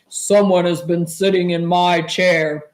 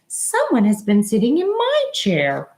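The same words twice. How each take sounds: First: It is said in a great big voice. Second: It is said in a middle-sized voice.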